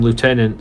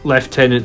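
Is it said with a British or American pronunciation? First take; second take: American; British. First: It is said the American way, 'lootenant'. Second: It is said the British way, 'leftenant'.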